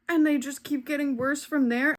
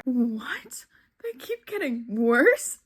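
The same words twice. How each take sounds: First: Said in the usual way. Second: Breath-caught what, then a rising question; incredulous dismay. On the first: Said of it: "someone said that there were". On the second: Real, not acted. Reader hearing the books get worse, incredulous dismay. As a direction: echo it back in disbelief. Shocked reaction to commenter's warning.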